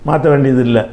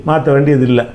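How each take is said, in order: Both takes have the same delivery.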